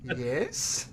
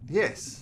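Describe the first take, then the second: First: The yes sounds weak and hesitant. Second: The yes sounds firm and confident. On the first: The promise is given without real commitment. The speaker calls it wrong. "not a yes" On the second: The promise is given with full commitment. The speaker calls it right. "What I was looking for was a yes"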